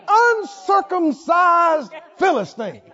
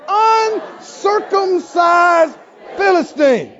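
First: Slow, scornful shout, nose in the air; haughty, drawn-out put-down; looking down your nose. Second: Slow, loud, scornful shout; haughty, drawn-out contempt; looking down your nose. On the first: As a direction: spit it out with contempt, dragging each word. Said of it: "You gotta look down your nose when you say it". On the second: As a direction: drag it out like a royal insult. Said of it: "Let's say". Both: Shown as a demonstration.

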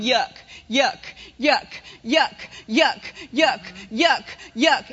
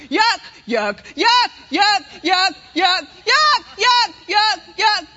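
First: Said in the usual way. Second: Yuck, yuck chanted louder and louder. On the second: Shown as a demonstration. Preacher shows the congregation the warning growing, shouted louder. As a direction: let the inner warning swell into a shout. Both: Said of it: "and it gets louder".

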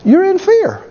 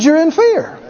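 First: High, stressed on fear; emphatic. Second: Higher second take, fear stressed; repeated emphasis. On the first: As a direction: hit fear hard. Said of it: "repeated for emphasis". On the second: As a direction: say it again, leaning on fear. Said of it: "I said". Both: Real, not acted.

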